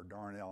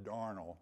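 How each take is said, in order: First: "darnel" with a full second syllable; alternative pronunciation of darnel. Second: "darnel" with the stress on the first syllable; first pronunciation of darnel. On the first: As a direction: say "darnel" as dar-NELL. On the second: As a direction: say "darnel" as DAR-nul, weak second syllable. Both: Shown as a demonstration. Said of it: "I don't know how you pronounce it".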